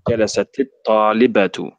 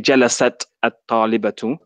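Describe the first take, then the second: First: The first word ends in ti, linked onward. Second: The first word ends in a bare t. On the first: The speaker calls it right. "we now pronounce it with a kasra" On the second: The speaker calls it wrong. "we don't say"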